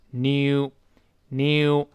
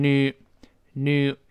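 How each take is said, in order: First: New said as "nyoo", with a y glide, drawn out; British new. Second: New said as "noo", with no y glide; American new. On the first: Teacher shows learners the British sound, new as "nyoo". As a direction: put a y inside new, slowly: "nyoo". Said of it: "英式发音有一个耶在里边". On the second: Teacher contrasts US with British for learners, new as "noo". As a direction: say new slowly as plain "noo". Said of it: "美式发音读成new". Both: Shown as a demonstration.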